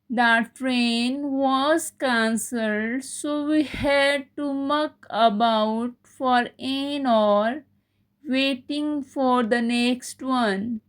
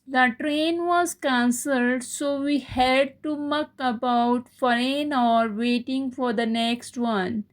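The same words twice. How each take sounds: First: It is said slowly. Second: It is said at normal speed.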